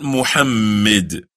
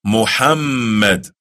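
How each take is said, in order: First: Muhammad said with a short m and a weak final i; the wrong Muhammad, short m; Muhammad, mispronounced as the wrong version; wrong pronunciation. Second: Muhammad said slowly with a held, doubled m; Muhammad with the long mm; correct pronunciation. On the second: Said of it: "Not Muhammad". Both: Shown as a demonstration.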